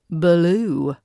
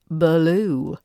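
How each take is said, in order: First: An uh sound comes between B and L. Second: The same.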